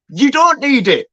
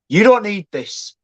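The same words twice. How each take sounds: First: Don't pushed higher and harder, then falling; insistent, don't hit up high; stress on don't. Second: Said in the usual way. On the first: Shown as a demonstration. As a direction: lean hard on don't in You don't need it. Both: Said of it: "I'm gonna re-emphasize that you don't".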